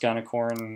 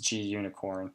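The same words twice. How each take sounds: First: The word does not contain the sound 'unicorn'. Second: The word contains the sound 'unicorn' after 'g'. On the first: The speaker calls it wrong. "I've heard it pronounced gunicorn. I don't find that a very attractive pronunciation" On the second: The speaker calls it right. "the documentation shows a unicorn, so I'm under the belief it's gunicorn"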